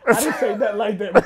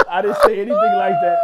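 First: Said in the usual way. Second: High, loud laughing protest; laughing shout. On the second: Real, not acted. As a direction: yell the denial through laughter. Denying the accusation, louder.

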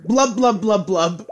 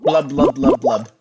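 First: High gurgling blubs; gurgling fish man croak. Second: Bubbly gurgling blubs; gurgling fish man croak. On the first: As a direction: shout the blubs, bubbling. Bubbling Leroy Jenkins while jumping. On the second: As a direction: blub it out like a fish. Cursed player mimes bubbling speech. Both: Pretend.

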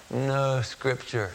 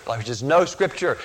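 First: Faint, slow and softer; barely getting the words out, slow; a dying man's weak, slow reply. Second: Said in the usual way. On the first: Retold or imitated. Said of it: "he said in a weak voice".

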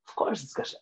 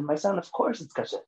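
First: Whispered, much softer, almost breathed; soft repeat. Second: Said in the usual way. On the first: Retold or imitated. Rabbi repeating to the boy, in a soft whisper. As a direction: let it fall to a hushed reassurance. Rabbi reassures child about candy.

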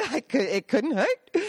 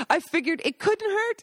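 First: Laughing. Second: Put-on high, sing-song old lady voice; lightly voiced Italian grandma; sweet old lady. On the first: Real, not acted. Repeats the quote laughing. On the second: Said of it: "Rosanna continued".

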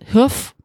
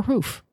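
First: "hoof" with the short vowel of "foot". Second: "hoof" with the long oo of "food"; long-vowel hoof. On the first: Co-host asking which pronunciation is right, short-vowel "hoof". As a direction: say "hoof" to rhyme with "woof". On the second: Co-host offering the other pronunciation, long-vowel "hoof". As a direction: say "hoof" to rhyme with "roof". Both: Shown as a demonstration. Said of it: "is it hoof or hoof".

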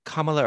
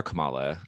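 First: "Kamala" stressed on the first syllable, KAH-muh-luh. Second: "Kamala" stressed in the middle, kuh-MAH-luh; second-syllable stress. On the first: Host asking which way "Kamala" goes, here stressed on the first syllable. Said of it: "not like the vice president". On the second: Host offering the other option, "Kamala" stressed on the second syllable. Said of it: "they say Kamala". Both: Shown as a demonstration.

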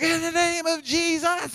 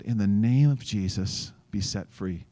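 First: High, slow mock shout of zealous leaders; imitated shouting. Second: Slow, calm prayer of authority; calm command. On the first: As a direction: holler it out, drawn out and high. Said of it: "like, shouting". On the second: Retold or imitated. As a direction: say it steadily, without shouting. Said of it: "Just calmly and just use my name".

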